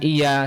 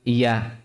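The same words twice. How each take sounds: First: The y sound is short and single. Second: The y sound is held and doubled. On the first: The speaker calls it wrong. "bukan iya saja" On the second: The speaker calls it right. "penekanan pada tasdid, pada huruf ya"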